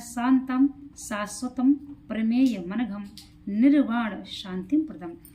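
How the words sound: The words are read apart with breaks between them. "देखिए हमने इसको तोड़ के पढ़ा।"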